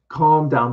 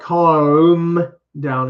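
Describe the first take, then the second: First: The L in calm is barely touched. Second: The L in calm is pronounced strongly. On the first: The speaker calls it right. "but it's very light" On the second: The speaker calls it wrong. "not like calm down. It's not that strong"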